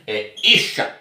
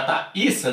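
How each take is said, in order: First: The middle consonant is an sh sound. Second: The middle consonant is a plain s sound. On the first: The speaker calls it right. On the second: The speaker calls it wrong. "Já estava errado"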